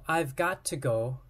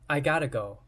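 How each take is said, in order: First: The words 'got to' are said in full. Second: The words 'got to' blend into 'gotta'. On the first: "I've got to go is reduced to" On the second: "reduced to I gotta go"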